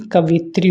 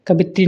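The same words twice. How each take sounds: First: Said in the usual way. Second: कवित्री with a b-like sound, "kabitri"; mispronunciation. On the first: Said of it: "कवित्री होती है". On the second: Shown as a demonstration. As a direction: soften the v of कवित्री into b. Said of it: "कवित्री नहीं". (कवित्री में 'व' की जगह 'ब')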